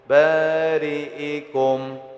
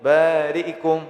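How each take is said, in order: First: The vowel after the hamza is said fully and steadily. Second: The vowel after the hamza is clipped quickly and short. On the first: This is the usual reading. "normal aja membaca kasroh hamzah tuh" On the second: This follows another narrator's reading. "Nah cepat nih"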